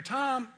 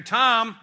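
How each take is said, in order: First: Higher, anxious call of Tom; worried call. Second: Louder, pointed call of Tom; warning call. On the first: Cindy calling her husband for help, worried. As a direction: call out like something's wrong. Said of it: "maybe something's wrong and Cindy needs my help". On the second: Wife calling her husband, sharp and pointed. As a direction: call his name like trouble is coming. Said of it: "I know there's something up". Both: Retold or imitated.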